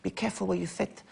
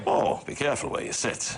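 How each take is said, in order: First: Soft, high lisping impression; quick lisped celebrity voice, softer and higher; Chris Eubank. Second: Lightly voiced broadcaster impression; put-on celebrity voice, played for laughs; Terry Wogan. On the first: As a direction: lisp it in a higher, hushed impression voice. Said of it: "I can do a very good Chris". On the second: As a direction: do a famous presenter on request. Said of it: "Do Teddy Wogan, do Teddy Wogan".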